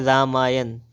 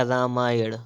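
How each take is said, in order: First: रामायण ending in dental n; plain n closing रामायण; wrong pronunciation. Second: रामायण ending in retroflex ṇ; correct pronunciation. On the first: Teacher reading the error, रामायण with dental n. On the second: Teacher correcting, रामायण with retroflex ṇ. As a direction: flap the end of रामायण. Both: Shown as a demonstration. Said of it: "तो क्या हो जाएगा".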